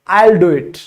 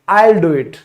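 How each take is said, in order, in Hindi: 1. 'will' को 'I' के साथ छोटा करके जोड़ा जाता है। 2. 'will' को 'I' के साथ छोटा करके जोड़ा जाता है।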